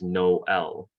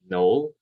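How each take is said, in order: First: The word has a break between its halves. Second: The word flows smoothly without a break. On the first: "in French is instead pronounced Noel... a bit of a break in between" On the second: "what in English would be read as Noel"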